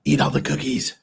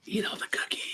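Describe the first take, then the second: First: Talking around a lollipop; sucking a lollipop. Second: Whispered temptation; breathy devilish whisper. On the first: Real, not acted. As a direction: lollipop in mouth, words muffled. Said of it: "you have a lollipop in your mouth". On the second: Pretend. Whispered repeat, lollipop in mouth.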